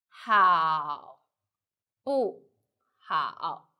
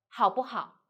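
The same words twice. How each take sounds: First: 好, 不, 好 slowly, each syllable apart; word by word. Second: 好不好 run together with a brief 不; light, short 不. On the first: Teacher breaks down the example, 好 不 好 syllable by syllable. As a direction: pause between 好, 不 and 好. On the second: Teacher models the example, 好不好 with light, short 不. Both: Shown as a demonstration. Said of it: "So let's put light and short".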